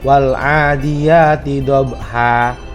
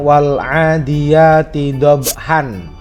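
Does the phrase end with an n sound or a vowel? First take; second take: vowel; n sound. First: The last word ends on a long a vowel. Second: The last word ends with an n sound. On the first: The reader stops at this word. "ketika dia berhenti dibaca wakof, maka huruf han ... akan diganti dengan harokat fathah" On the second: The reading continues without stopping. "Kita baca"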